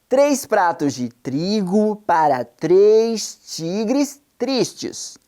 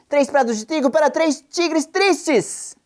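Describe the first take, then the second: First: It is said very slowly, with pauses. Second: It is said as fast as possible. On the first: "uma vez bem devagar e pausadamente" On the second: "o mais depressa que você conseguir"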